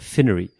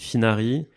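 First: It is said with an American pronunciation. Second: It is said with a French pronunciation.

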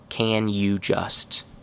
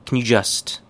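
First: Each of the three words is said fully. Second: The words blend slightly, keeping a faint 'you'. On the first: "Very correct, but nobody actually says it this way" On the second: "More correct"

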